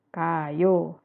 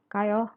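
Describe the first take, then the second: First: The pitch falls at the end. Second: The pitch stays level at the end. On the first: It states that someone is going. "Jadi turun" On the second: It invites someone to go together. "kalau ajakan dia datar aja"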